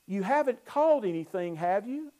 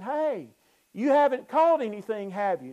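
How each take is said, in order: First: Said in the usual way. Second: Pitched higher and louder, a pointed teasing call; knowing challenge. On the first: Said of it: "and really it reads". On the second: Shown as a demonstration. Jesus calling to the empty-handed fishermen, knowing and pointed. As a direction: call it out like you already know the answer. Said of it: "the implications in the Greek text is Jesus saying".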